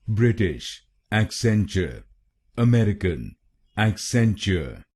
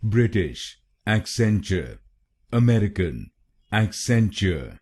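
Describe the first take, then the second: Both takes have the same delivery.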